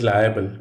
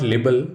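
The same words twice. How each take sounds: First: "liable" as LYE-uh-bul; "liable" in three syllables, LYE-uh-bul; right liable. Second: "libel" as LIB-el; "libel" with a short i, LIB-el; wrong libel. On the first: Teacher showing students the right way, "liable" in three syllables. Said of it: "it is liable". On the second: Teacher showing students the wrong way, "libel" as LIB-el. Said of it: "It is not libel". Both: Shown as a demonstration.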